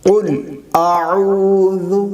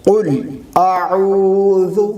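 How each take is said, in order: No difference in how they are said.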